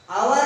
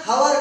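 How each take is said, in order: First: ଆୱାର with no H sound at all; hour with silent H. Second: ହାୱାର begun on a breathed H sound; hour with H sounded. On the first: Teacher asks class how we say hour, H silent. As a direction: say ଆୱାର starting straight on the vowel. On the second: Teacher asks class how we say hour, H sounded. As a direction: say ହାୱାର with an audible H at the start. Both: Shown as a demonstration. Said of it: "ଆୱାର କହୁଛେ ନା ହାୱାର କହୁଛେ".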